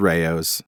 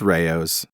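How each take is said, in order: First: The name is said with two syllables, ray-oh's. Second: The name is said with two syllables, ray-oh's.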